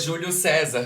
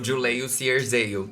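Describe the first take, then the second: First: The name has plain Portuguese pronunciation. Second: The name has exaggerated English-style pronunciation. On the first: This is how the name really sounds. "O nome dele é Júlio César" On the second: This mocks an awkward attempt to sound English. "ele falou Juleio Cierzeio"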